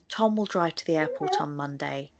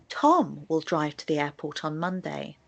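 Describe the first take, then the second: First: No word carries extra stress; the tone is neutral. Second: The word Tom carries the strong stress. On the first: It answers no particular question. "in a very neutral tone of voice without any sentence stress" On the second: It is Tom, and nobody else, who will go. "I stress the word Tom"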